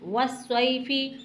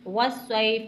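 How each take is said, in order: First: The word ends with a short i vowel. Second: The word ends on the consonant f. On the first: The reading continues without a stop. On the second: The reading stops at the end of the verse.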